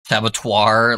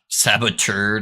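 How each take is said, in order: First: The ending rhymes with abattoir. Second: The ending does not rhyme with abattoir. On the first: The speaker calls it wrong. "purposely say it wrong now just to piss you off. Saboteur, like abattoir" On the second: The speaker calls it right. "saboteur, not saboteur"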